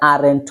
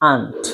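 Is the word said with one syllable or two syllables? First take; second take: two syllables; one syllable. First: The word is said with two syllables. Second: The word is said as one syllable. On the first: The speaker calls it wrong. "এটা আরেন্ট হবে না" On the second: The speaker calls it right. "উচ্চারণ হবে আন্ট"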